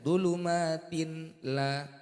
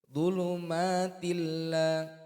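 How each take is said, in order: First: The n is pronounced clearly before the l. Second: The n merges into a doubled l sound. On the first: The speaker calls it wrong. "bukan dibaca" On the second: The speaker calls it right. "Ini cara membacanya"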